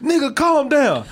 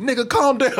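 First: Drawn-out mock scold; slower emphatic scold. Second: Brisk mock chat scold; quick scolding quote. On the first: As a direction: lean on it slowly. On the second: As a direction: toss it off fast, scolding. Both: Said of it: "they come in".

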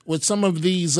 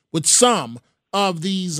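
First: Said in the usual way. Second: Slow down and lean hard on "some"; "some" stressed and drawn out as a careful qualifier. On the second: Real, not acted. Host avoiding a broad brush, heavy stress on "some". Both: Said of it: "I don't mean to paint everybody with a broad brush".

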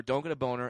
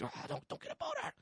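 First: Said in the usual way. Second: Squeaky high, strained and soft; a tight, high squeak of panic; panicked inner plea. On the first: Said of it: "The two thoughts were". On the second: Retold or imitated. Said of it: "it was just like".

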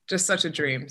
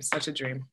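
First: Said in the usual way. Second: Soft, slightly British accent; Satine's British voice. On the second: Real, not acted. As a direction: drift softly into a British accent. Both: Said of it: "slowly slipped into your sateen voice there".

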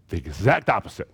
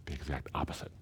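First: "exact" stressed, louder, falling to a firm close; emphatic repeat. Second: Said very softly, almost to himself; hushed. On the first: Preacher driving home Jesus' point, "exact" stressed firmly. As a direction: lean hard on "exact" in "The exact opposite". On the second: Preacher quietly restating what Jesus says, hushed. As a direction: drop the voice right down on "the exact opposite". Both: Real, not acted.

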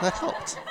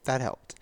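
First: Laughing. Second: Said in the usual way. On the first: Real, not acted. Laughing through tears.

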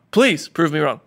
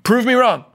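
First: Said in the usual way. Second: Defiant challenge. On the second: Real, not acted. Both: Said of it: "I'm a little pissed off".

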